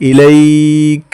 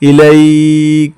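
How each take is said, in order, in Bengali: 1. শব্দটি k দিয়ে শেষ হয়, স্বরধ্বনি বাদ যায়। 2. শব্দটি k দিয়ে শেষ হয়, স্বরধ্বনি বাদ যায়।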